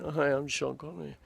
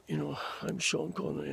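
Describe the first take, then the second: First: A lightly voiced young Connery greeting; young Sean Connery. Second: Put-on a softer, worn older Connery voice; older Sean Connery. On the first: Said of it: "young Sean Connery". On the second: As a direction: do Connery later in life, voice gone a bit. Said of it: "slightly older 'cause his voice has gone a bit". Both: Shown as a demonstration.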